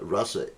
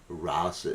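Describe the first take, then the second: First: It is pronounced as the word meaning taste. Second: It is pronounced as the word meaning dance. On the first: It means the taste of a relationship. "Rasa is the taste of a relationship" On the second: It means a dance. "Rasa is a dance"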